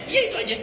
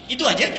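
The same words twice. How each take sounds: First: "itu aja" much higher, with a light laugh; confirming answer. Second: "Itu aja" lifted higher as a short question. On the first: Answering a companion's doubt about the advice, lightly confirming. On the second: Companion checking the Prophet's short advice, questioning. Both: Acted.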